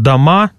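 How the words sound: The unstressed first vowel sounds like A. This is the standard or southern form. "как в литературном языке или в южно-русских говорах там «дома» и «давай». Мы произносим один и тот же гласный"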